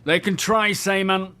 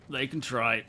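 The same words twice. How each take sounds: First: Raised, higher, declaiming boldly; dramatic hero line. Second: Said in the usual way. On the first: Pretend. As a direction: proclaim it like a movie hero. Dramatic quoted line, then repeated.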